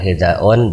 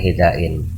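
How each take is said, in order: First: The word ends in -un. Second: The word ends in -ain. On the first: "bukan hidaun" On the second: "bukan hidain"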